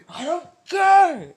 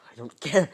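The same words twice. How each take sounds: First: Very high, loud, drawn-out shout; full-force acted yell of defiance; defiant scream. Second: Loud, defiant burst, rising at the end; first, smaller yell of defiance; defiant outburst. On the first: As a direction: blow up, stretching the words into a scream. Defiant outburst, escalated repeat. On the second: Acted. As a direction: snap it out loudly, holding back the full shout.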